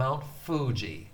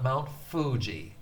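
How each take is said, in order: First: The f is made with teeth on lip. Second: The f is made with teeth on lip.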